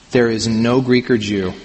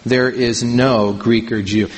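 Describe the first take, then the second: First: Said in the usual way. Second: Slow, with weight on "no" in "There is no Greek or Jew"; emphatic negative. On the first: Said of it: "Literally, you can see the italicized words aren't there". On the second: Shown as a demonstration. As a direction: lean hard on "no" in "There is no Greek or Jew", slowly. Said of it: "He starts out with the emphatic negative".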